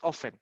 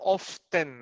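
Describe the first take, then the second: First: The middle T sound is left silent. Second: The middle T sound is clearly pronounced. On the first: The speaker calls it right. "It's just often" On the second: The speaker calls it wrong. "No T, no T pronunciation, no often"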